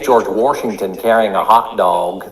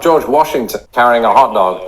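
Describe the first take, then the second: First: Washington is said in a regional way. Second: Washington is said in the standard way. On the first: The speaker calls it right. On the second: The speaker calls it wrong. "he's not"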